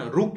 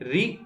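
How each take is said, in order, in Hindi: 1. यह अक्षर 'ru' जैसा बोला जाता है। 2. यह अक्षर 'ri' जैसा बोला जाता है। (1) "उसमें इसका उच्चारण रु किया जाता है" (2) "हिंदी में रि बोला जाता है"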